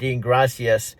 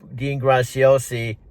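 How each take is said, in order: First: The surname sounds like the Spanish word gracias. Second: The surname ends with an -osi sound. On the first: The speaker calls it wrong. "She pronounces it Gracias" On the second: The speaker calls it right. "she doesn't pronounce his name Graciosi"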